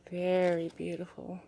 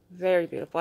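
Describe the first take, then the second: First: Said in the usual way. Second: "Very" punched louder and falling; louder emphatic "Very beautiful"; emphatic repeat. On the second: Real, not acted. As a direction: say it again, louder and firmer. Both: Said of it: "repeated with emphasis".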